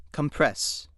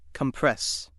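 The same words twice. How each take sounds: No difference in how they are said.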